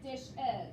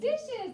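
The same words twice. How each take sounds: First: "dish is" said slowly as two separate words; slow split syllables. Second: "Dishes" said as one word, high and loud; emphatic whole word. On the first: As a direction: slowly pull "dish is" apart into dish and is. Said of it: "make it say, like". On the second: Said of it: "And how about dish?". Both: Shown as a demonstration.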